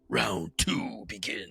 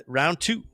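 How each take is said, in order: First: Slow, softer game-announcer call; mock fight announcer. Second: Said in the usual way. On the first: Game master opens the duel's next round, mock announcer. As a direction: stretch it out like an arcade round announcer.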